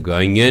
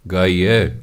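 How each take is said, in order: First: ਗਾਈਆਂ with a long nasal aa ending; the mistaken ਗਾਈਆਂ, nasal final vowel; wrong reading. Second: ਗਾਈਐ ending in a short open ai, no nasal; correct reading. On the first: (ਗ਼ਲਤ ਉਚਾਰਨ ਗਾਈਆਂ) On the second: (ਸਹੀ ਉਚਾਰਨ ਗਾਈਐ) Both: Shown as a demonstration. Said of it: "ਇਹਨੂੰ ਗਾਈਆਂ ਨਹੀਂ ਪੜ੍ਹਨਾ".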